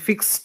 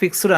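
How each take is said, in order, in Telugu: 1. ఈ పదం t శబ్దంతో ముగుస్తుంది. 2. ఈ పదం d శబ్దంతో ముగుస్తుంది. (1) "టీ సౌండ్ రావాలి"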